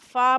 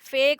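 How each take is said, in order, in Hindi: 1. अक्षर का नाम 'a' स्वर पर खत्म होता है। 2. अक्षर का नाम 'e' स्वर पर खत्म होता है। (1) "फा बोलेंगे" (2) "फे कोई नहीं बोलेगा"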